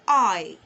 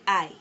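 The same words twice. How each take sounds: First: The word is said with rounded lips. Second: The word is said with unrounded lips. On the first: The speaker calls it right. "you need to round your lips, make it sound sweet" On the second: The speaker calls it wrong. "Most times we say I"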